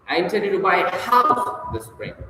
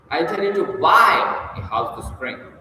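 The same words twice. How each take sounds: First: The stress falls on the word house. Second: The stress falls on the word buy. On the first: A house rather than a car is planned. "and not an automobile" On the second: Buying rather than renting is planned. "instead of renting as the here- heretofore"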